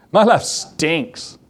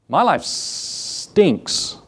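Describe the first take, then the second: First: Said in the usual way. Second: Slow, breathy whisper of a miserable rich man; mock whispered complaint. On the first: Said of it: "I better use that word". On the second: Preacher imitating rich people at the top, whispering slowly. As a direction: whisper it like a bored millionaire moaning.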